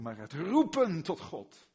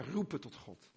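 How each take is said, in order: First: "roepen tot God" called out louder, "roepen" hit hard. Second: Said in the usual way. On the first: Shown as a demonstration. Preacher showing his congregation a loud cry to God. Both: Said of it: "niet per se om het volume".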